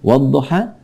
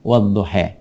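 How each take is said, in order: First: The final vowel is an open 'a' sound. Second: The final vowel leans toward an 'e' sound.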